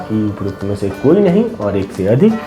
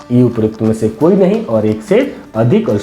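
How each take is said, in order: The two takes are said the same way.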